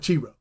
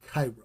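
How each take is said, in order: First: The word sounds different from the city Cairo. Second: The word sounds just like the city Cairo. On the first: The speaker calls it wrong. "it's not Chi-Rho" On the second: The speaker calls it right. "we pronounce it Cairo"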